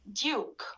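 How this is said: A y sound comes before the vowel. The speaker calls it right. "has to be pronounced in the British accent"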